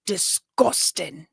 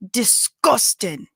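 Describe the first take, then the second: First: Put-on slow Scottish-accented "Disgusting.", stretched out; a light take on how Scots say "Disgusting.". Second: "disgusting" drawn out slowly, imitating a Scottish accent. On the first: Asking Scottish cousins if they say it, Scottish accent. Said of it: "is that Scottish". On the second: Telling Scottish viewers how they say it, Scottish accent. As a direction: stretch "disgusting" like a Scot would. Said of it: "people say it like that".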